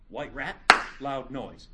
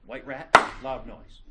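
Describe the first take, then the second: First: Said in the usual way. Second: Emphatic announcement. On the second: Shown as a demonstration. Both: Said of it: "Let's do it again".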